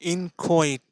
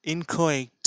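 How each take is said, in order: No difference in how they are said.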